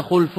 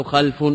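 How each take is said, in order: First: خلف said xulf, open u after the kh, no vowel on l; خلف pronounced xulf with damma. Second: خلف said xalf, open a after the kh; خلف pronounced xalf with fatha. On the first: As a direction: say خلف as khulf, a short u after the kh and the l unvowelled. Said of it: "بضم الخاء المعجمة وسكون اللام". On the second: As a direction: say خلف as khalf, a short a after the kh and the l unvowelled. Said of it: "أو بفتح الخاء". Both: Shown as a demonstration.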